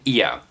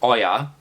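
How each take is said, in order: First: The name begins with an 'ee' sound. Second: The name begins with an 'oh' sound. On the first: The speaker calls it right. "but no, no, no, it's called Ia" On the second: The speaker calls it wrong. "I thought it's called Oya"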